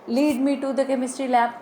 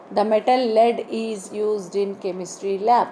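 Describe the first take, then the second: First: "lead" with long ee, like leed. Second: "lead" with short e, like led. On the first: Teacher gives guiding example sentence, long-ee "lead". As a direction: say "lead" to rhyme with need. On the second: Teacher gives metal example sentence, short-e "lead". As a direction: say "lead" to rhyme with bed. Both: Shown as a demonstration. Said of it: "different pronunciation and meaning".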